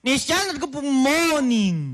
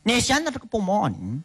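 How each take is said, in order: First: It is said more slowly. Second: It is said at a faster pace.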